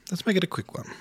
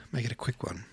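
First: Much higher and louder, punchy; bright, loud restated push; emphatic repeat. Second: Said in the usual way. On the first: Shown as a demonstration. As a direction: say it again with a burst of energy.

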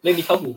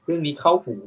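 First: Louder, higher perked-up repeat; perked-up interest, a touch higher; perking up again. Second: Louder, interested perk-up; suddenly hooked by the topic; mock perked-up interest. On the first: Retold or imitated. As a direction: lean in, hooked. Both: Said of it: "อืม เรื่องนี้เข้าหู".

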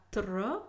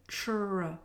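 First: "tr" with a crisp T then R; separate t and r. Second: "tr" softened toward a ch sound. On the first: Teacher contrasting the wrong version, "tr" with T and R separate. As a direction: keep the T and R of "tr" apart. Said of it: "pas tr". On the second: Teacher demonstrating the English cluster, "tr" said like ch. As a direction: blend "tr" into a ch. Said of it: "l'entendre prononcer tr". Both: Shown as a demonstration.

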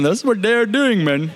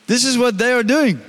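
First: Playfully put-on Indian accent; mock Indian accent. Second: Unintended hint of an Indian accent; Indian-sounding accent. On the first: Preacher joking about his own slip, mock Indian accent. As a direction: play up an accidental Indian lilt as a joke. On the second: Real, not acted. Preacher explaining the false teachers, slight Indian-sounding accent. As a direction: slip slightly into an Indian lilt. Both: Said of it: "why I sounded Indian".

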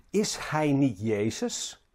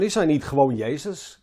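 First: Slow, understated cynical question; cynisch. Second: Mildly belittling question; denigrerend. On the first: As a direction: quote it slowly with a touch of cynicism. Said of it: "met cynisme". (licht cynisch, langzaam gevraagd) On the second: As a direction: ask it with a touch of disdain. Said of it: "Ze spreken wat denigrerend over hem". (licht denigrerend gevraagd) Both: Retold or imitated.

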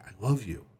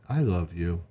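First: Soft, heartfelt declaration of love; mean it tenderly, softly; emotional. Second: Low, toneless declaration of love; emotionless. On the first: Wife looking her husband in the eyes, emotional. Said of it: "with eyes that are emotional". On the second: Wife speaking to her husband, emotionless. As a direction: say it with no feeling at all. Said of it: "in an emotionless voice". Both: Shown as a demonstration.

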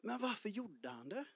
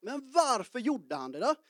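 First: Soft musing. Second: Asking voice. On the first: Real, not acted. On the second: Retold or imitated. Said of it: "om man skulle ställa en fråga".

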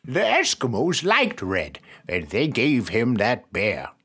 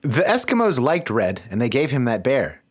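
First: Put-on slow old grandfather voice; slower, aged grandpa delivery. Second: Put-on barely-there old grandfather voice; a weak first try at grandpa; failed grandfather voice. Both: Shown as a demonstration. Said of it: "that's not a grandfather voice at all".

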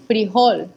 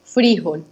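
First: "frijol" with the stress on OL: fri-JOL; stress on final syllable. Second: "frijol" with the stress on FRI: FRÍ-jol; stress on first syllable. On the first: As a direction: say "frijol" Mexican-style, stressing the last syllable. ("frijol" con acento en la última sílaba) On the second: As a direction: say "frijol" Colombian-style, stressing the I. ("frijol" con acento en la primera sílaba) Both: Shown as a demonstration. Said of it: "con tilde en la I".

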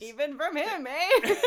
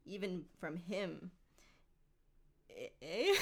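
First: Loud, high mock quote through giggles; hammed-up repeat of a Canadian-style "eh"; laughing Gollum imitation. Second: Understated theatrical creature with a Canadian-style "eh"; lightly voiced Canadian Gollum. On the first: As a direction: mimic the line while cracking up. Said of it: "He just is like". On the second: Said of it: "Why is he Canadian?".

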